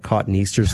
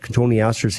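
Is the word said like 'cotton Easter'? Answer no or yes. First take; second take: yes; no. First: It is said like 'cotton Easter'. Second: It is not said like 'cotton Easter'.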